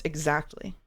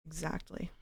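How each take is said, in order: First: Put-on Valley Girl uptalk on Exactly. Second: Put-on whispered Valley Girl Exactly with a rise; quiet Valley Girl echo. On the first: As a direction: end Exactly with a lilting Valley Girl rise. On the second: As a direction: softly repeat Exactly, Valley Girl style. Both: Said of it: "I can do the Valley Girl voice".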